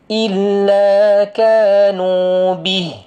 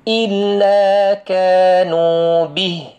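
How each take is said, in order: Both takes have the same delivery.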